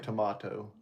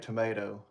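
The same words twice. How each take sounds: First: It is said with an English-style pronunciation. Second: It is said with an American-style pronunciation. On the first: "is how the English say it" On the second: "They don't say tomato"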